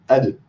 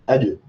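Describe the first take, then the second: First: The final consonant ends with a short bouncing echo. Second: The final consonant ends with a short bouncing echo.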